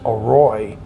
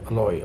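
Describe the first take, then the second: First: The middle consonant is an R sound. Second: The middle consonant is an L sound. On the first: "delicious is Aroy" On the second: "you'll hear them say Aloy"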